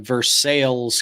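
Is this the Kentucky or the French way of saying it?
Kentucky. It is said the local Kentucky way. This names the town in Kentucky. "here in Kentucky, there's a Versailles"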